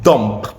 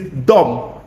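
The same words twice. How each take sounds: First: The final b sound is clearly pronounced. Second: The final b sound is silent. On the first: The speaker calls it wrong. "not dumb" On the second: The speaker calls it right. "It is dumb"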